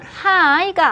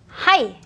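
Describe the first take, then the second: First: It sounds like the English greeting hi. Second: It sounds like the Japanese word hai. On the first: The speaker calls it wrong. "이거는 하이가 아니라" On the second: The speaker calls it right. "it's 하이, 그런 느낌을 하죠. 일본 느낌으로"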